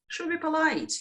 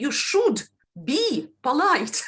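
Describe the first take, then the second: First: The d of should blends into a b sound. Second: The d of should is pronounced clearly as d. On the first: The speaker calls it right. "So there is assimilation. D uh, changes to B" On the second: The speaker calls it wrong. "you're not saying"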